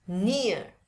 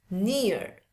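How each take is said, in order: First: "near" with silent final R; British demo of "near", R dropped. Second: "near" with sounded final R; American demo of "near", R pronounced. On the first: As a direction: say "near" ending on the vowel, no R. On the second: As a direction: say "near" closing on an audible R. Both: Shown as a demonstration.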